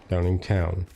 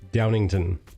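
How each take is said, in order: First: The last syllable sounds like 'town'. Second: The last syllable sounds like 'ton'. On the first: The speaker calls it right. "There's a W in there. It's Downingtown" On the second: The speaker calls it wrong. "I pronounced it Downington for no apparent reason"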